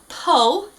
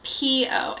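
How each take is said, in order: First: It is said as one short syllable. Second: It is said as two separate letters. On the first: The speaker calls it wrong. "it's not Po" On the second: The speaker calls it right. "his name is P O"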